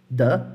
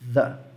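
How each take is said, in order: First: The first sound is made behind the teeth. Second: The first sound is made between the teeth. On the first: "Se você achar mais fácil, você pode pronunciar assim" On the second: "é um som que é feito com a pontinha da língua entre os dentes"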